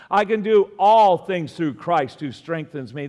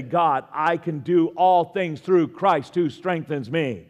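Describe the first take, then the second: First: Said in the usual way. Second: Slow, firm, emphatic declaration; spoken as a faith declaration. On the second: Shown as a demonstration. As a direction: proclaim it slowly for the room to repeat. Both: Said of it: "Can you say that with me?".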